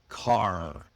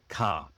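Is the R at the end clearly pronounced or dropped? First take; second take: pronounced; dropped. First: The final R is clearly pronounced. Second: The final R is dropped. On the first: The speaker calls it right. "repeat the strong R sounds" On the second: The speaker calls it wrong. "not swallowed, not like ka"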